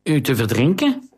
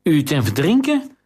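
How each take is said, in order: First: The accused man repeats the question in alarm, a touch of panic in his voice; half-voiced panic, disbelieving; panicked nasal man. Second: Higher, more alarmed second take of the question; panicked repeat. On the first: Accused courtier to the queen, mildly panicked. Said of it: "De nasale stem klonk paniekerig". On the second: Accused courtier repeats the queen's charge, rising panic. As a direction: push the panic further on the repeat. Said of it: "herhaalde hij". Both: A narrator's reading.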